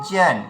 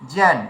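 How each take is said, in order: No difference in how they are said.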